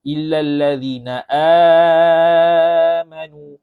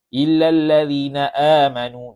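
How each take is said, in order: First: The long vowel in amanu is held moderately long. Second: The long vowel in amanu is held briefly. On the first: "empat harakat" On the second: "dua harakat"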